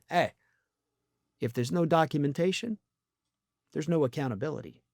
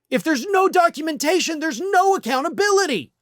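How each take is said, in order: First: It sounds like someone sly getting away with something. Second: It sounds like a concerned, earnest citizen.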